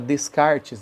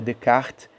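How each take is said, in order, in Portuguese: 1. O nome é falado com sons de estilo português. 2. O nome é falado com sons de estilo francês. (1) "a gente fala Descartes" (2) "o correto é Descartes, que é o nome francês"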